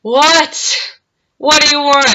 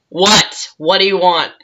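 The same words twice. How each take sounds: First: Higher, louder retold irritation; mock fed-up "what", pitched up; exasperated reply. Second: Said in the usual way. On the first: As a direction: answer a pest who won't give up. Second reply to persistent man.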